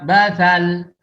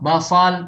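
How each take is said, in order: First: The middle consonant is a 'th' sound as in 'think'. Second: The middle consonant is an emphatic 's' sound. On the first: The speaker calls it wrong. "dia baca basal ... ini juga kesalahan" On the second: The speaker calls it right. "basal pakai sad"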